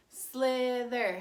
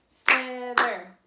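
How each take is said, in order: First: Slither said in two even clapped beats; syllable-clapped. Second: Slither said loud, split into two clapped beats; syllable-clapped. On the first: Teacher leading kindergartners clapping slither. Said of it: "You clap for me". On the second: Teacher clapping slither for the class, loud two beats. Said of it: "I'm gonna clap it". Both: Shown as a demonstration.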